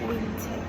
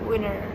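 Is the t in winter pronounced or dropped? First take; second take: pronounced; dropped. First: The t is clearly pronounced after the n. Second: The t is dropped after the n. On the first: "And so they are like British. They say like winter" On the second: "it can be pronounced as in G A, General American Pronunciation"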